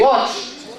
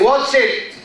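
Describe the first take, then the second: First: The ending is a single t sound. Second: The ending is an extra syllable, id. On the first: The speaker calls it right. "We say watched" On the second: The speaker calls it wrong. "We don't say watch it"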